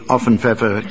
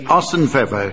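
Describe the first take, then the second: First: The first word has an f sound in the middle. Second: The first word has an s sound in the middle. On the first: The speaker calls it wrong. "It's not Often Pfeffer" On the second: The speaker calls it right. "Yeah, it's silent"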